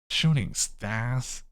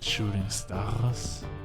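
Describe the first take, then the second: First: It is said in a snarky voice. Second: It is said in a plain voice.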